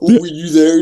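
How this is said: It is said in a deep, manly put-on voice. "That's a cool DC impression. Very deep, very manly"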